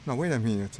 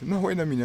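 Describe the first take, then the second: First: Loud, startled catch of a mistake; sudden realisation. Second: Higher and louder, really alarmed now; alarmed shout. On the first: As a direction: stop yourself short, loud. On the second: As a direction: yell it as the mistake sinks in. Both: Real, not acted. Sudden realisation mid-dogfight.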